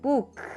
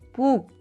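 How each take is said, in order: First: The final k is released with air. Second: The final k is blocked with no air. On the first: "I release the air at the end" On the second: "I block the air at the end"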